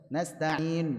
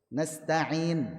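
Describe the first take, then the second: The two takes are said the same way.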